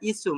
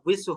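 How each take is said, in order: First: The lips stay unrounded, giving a plain 'i' sound. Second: The lips are rounded, giving a 'wi' sound. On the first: The speaker calls it wrong. "আর যদি মুখটা গোল না করেন তখন এটা ইসু" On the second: The speaker calls it right. "এটা মুখটা গোল করলে এটা উইসু হবে"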